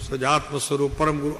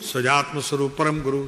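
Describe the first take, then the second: The two takes are said the same way.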